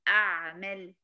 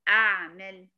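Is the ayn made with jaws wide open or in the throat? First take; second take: throat; throat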